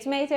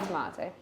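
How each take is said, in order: First: It is said with an American pronunciation. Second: It is said with a British pronunciation. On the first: "Americans say tomato" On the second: "I say tomato"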